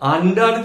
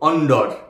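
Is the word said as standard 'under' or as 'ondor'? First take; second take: under; ondor. First: It is said with the usual English pronunciation. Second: It is said with rounded vowels, like 'ondor'. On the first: "আন্ডার যে শব্দ" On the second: "হয়ে যেত অন্ডর"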